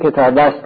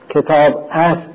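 First: The verb 'ast' is merged into the noun. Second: The verb 'ast' is said in full, separately. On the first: This is how it is read aloud. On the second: This is the written form.

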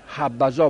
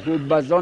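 First: The first vowel is an open 'a'. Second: The first vowel is a rounded 'u'. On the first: The speaker calls it right. "حبزا بگو" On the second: The speaker calls it wrong. "حبزا نگو"

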